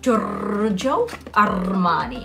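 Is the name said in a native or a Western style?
native. The name is said in a native style. The speaker calls it right. "but it's actually pronounced Giorgio Armani"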